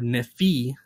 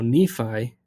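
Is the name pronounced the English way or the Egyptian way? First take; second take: Egyptian; English. First: The name is pronounced the Egyptian way. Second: The name is pronounced the usual English way.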